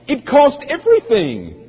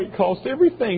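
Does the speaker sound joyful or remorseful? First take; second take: joyful; remorseful. First: It is said in a glad, joyful tone. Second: It is said in a regretful, mournful tone. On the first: The cost is something to rejoice in. The speaker calls it right. "oh, joy unto Christ" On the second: The cost is something to regret. The speaker calls it wrong. "with a sense of remorse like, oh no"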